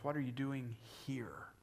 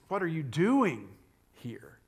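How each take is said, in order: First: The stress is on the word here. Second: The stress is on the word doing.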